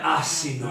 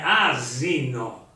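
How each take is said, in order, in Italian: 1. La s è sorda, come un sibilo. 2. La s è sonora, come una z. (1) "Non è assino" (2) "è una S sonora"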